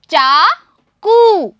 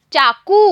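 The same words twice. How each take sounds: First: चाकू dragged out very slowly and a bit louder; very slow model word. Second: Said in the usual way. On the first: Shown as a demonstration. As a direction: stretch चाकू long for the class. (चाकू बहुत धीरे खींचकर) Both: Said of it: "मैं आपको पढ़ के दिखा रही हूँ".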